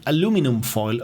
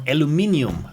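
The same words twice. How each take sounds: First: "aluminum" said the American way, without the second I; American pronunciation. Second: "aluminium" said with stress on MIN, ending in ee-um; pronouncing the I. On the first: Streamer demonstrating the American word, American pronunciation. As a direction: say "aluminum" with stress on LU, ending in num. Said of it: "Americans always say aluminum". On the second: Streamer correcting Americans on the word, I pronounced. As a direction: say "aluminium" with every syllable, the second I sounded. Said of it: "because there's an I in there". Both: Shown as a demonstration.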